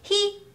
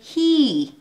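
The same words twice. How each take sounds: First: The vowel is short and flat. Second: The vowel is long and glides downward. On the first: The speaker calls it wrong. "he ではなくhe" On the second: The speaker calls it right. "long ですよ"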